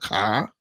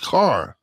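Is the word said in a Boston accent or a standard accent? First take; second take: Boston; standard. First: The word is said in a Boston accent. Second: The word is said in a standard accent. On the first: The speaker calls it wrong. "not car" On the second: The speaker calls it right. "It's car"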